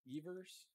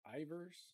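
First: The name begins with an E vowel sound. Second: The name begins with a different vowel sound. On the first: "An E sound, like Evers" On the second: "or is it Ivers?"

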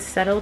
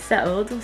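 First: The word sounds American. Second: The word sounds British.

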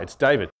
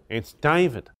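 First: The voice sounds clear, with the nose unblocked. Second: The voice sounds muffled, as if the nose is blocked. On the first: The caller has taken the tissues out. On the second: The caller has tissues stuffed up his nose.

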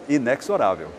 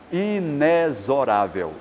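First: The x is pronounced like ks. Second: The x is pronounced like z. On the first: This is how most people say it. The speaker calls it wrong. "se você ouvir a maioria das pessoas pronunciando esta palavra, você vai ouvir esse som" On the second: This is how the dictionaries recommend saying it. The speaker calls it right. "é pronunciar-se inexorável, som de Z na letra X"

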